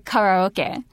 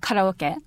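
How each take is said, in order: First: It is said with an English pronunciation, harder R. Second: It is said with a Japanese pronunciation. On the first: "I will make a harder R sound ... make it sound a little bit more English" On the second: "making it sound so Japanese"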